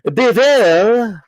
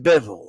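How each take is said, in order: First: The name is said with an exaggerated Russian pronunciation. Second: The name is said with a plain English pronunciation. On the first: The speaker calls it wrong. "wants to speak perfect Russian all of a sudden" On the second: The speaker calls it right. "it's Bevel, okay? Like, chill out"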